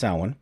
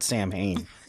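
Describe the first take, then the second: First: It does not sound like 'Sam' plus 'Hain'. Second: It sounds like 'Sam' followed by 'Hain'. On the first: The speaker calls it right. "that's how it's pronounced" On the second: The speaker calls it wrong. "That just sounds really weird"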